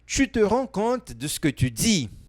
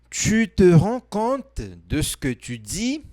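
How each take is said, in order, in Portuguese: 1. A frase é dita em velocidade normal. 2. A frase é dita mais devagar.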